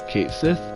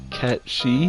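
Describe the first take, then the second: First: The name is said like 'Kate Sith'. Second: The name is said like 'Cat She'. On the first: This is the familiar way of saying it. "I'm used to saying Kate Sith" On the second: This is the supposedly correct way of saying it. "I hear the pronunciation is supposed to be Cat She"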